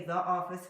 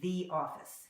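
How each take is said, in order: First: The word 'the' has a short 'uh' vowel. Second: The word 'the' has a long 'ee' vowel. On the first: The speaker calls it wrong. "we don't say the office" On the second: The speaker calls it right. "we say the office"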